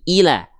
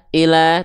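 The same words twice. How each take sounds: First: The first vowel is a clear i. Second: The first vowel sounds close to e. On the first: The speaker calls it right. "tapi I" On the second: The speaker calls it wrong. "jangan condong ke vokal E. E"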